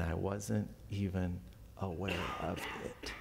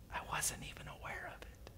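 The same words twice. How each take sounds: First: Said in the usual way. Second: Hushed, voiceless whisper. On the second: Shown as a demonstration. Preacher repeating a verse about God's presence, whispered. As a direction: whisper it, much softer.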